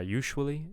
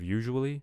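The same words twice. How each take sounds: First: The middle consonant is a voiceless 'sh' sound. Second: The middle consonant is a voiced 'zh' sound. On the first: The speaker calls it wrong. "it sounds devoiced there" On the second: The speaker calls it right. "we just want that sound to be that constant to be voiced"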